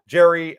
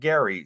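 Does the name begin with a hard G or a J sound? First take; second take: J sound; hard G. First: The name begins with a J sound. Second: The name begins with a hard G sound. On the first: The speaker calls it right. "pronounced as Jerry" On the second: The speaker calls it wrong. "not Gary"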